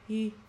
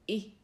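First: The vowel starts from open vocal folds. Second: The vowel starts from closed vocal folds. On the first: "開いてる声帯に息を当てて作る母音" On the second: "閉じてる声帯に息を当てて作る母音"

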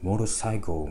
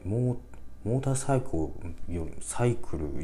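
First: The middle t is dropped, sounding like 'ru'. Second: The middle t is pronounced clearly as 'ta'. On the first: "モルサイクルみたいな感じ" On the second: "もうターって言わないですよね"

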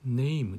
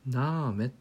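First: It is said like English 'name', with 'ay'. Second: It is said 'nah-meh', read letter by letter. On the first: The speaker calls it wrong. "Name じゃなくて" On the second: The speaker calls it right. "そのままローマ字みたいにベタベタっと読む"

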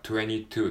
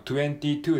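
First: The t in twenty is dropped. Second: The t in twenty is fully pronounced. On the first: "実際は22 っていう風に言われることが多いです" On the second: "もちろん22 でもいいんですけども"

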